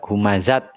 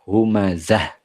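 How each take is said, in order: First: The word ends with a t sound. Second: The word ends with a soft h sound. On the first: The speaker calls it wrong. "Tidak humazat bukan" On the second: The speaker calls it right. "dibaca ha ya humazah"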